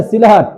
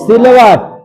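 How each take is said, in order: First: सिलहट said with a clear ह in the middle; correct name Sylhet. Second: सिलवट said with a clear व, as the mistaken name; the wrong version सिलवट, with व in the middle; wrong name Silwat. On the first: Teacher corrects students on the town name, stressing सिलहट. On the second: Teacher models the wrong name to students, plainly saying सिलवट. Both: Shown as a demonstration. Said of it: "सिलवट नहीं, सिलहट".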